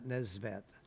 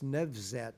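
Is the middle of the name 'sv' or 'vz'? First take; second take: sv; vz. First: The middle sounds are 's' then 'v'. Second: The middle sounds are 'v' then 'z'. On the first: The speaker calls it wrong. "not Nesvat. I often say it wrong" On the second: The speaker calls it right. "it's Nevzat"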